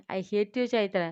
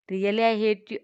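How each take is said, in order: First: Said in the usual way. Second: Really, I hate you drawn out slowly and louder; each word of Really, I hate you spaced out and pressed; slow emphatic repeat. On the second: Acted. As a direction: lean hard on Really, I hate you, stretching every word.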